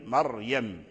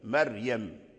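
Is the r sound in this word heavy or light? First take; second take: heavy; light. First: The r is pronounced heavy and full. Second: The r is pronounced light and thin. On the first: "مريم بالتفخيم الراء" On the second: "فبعض أهل الأداء رققوا هذه الراءات"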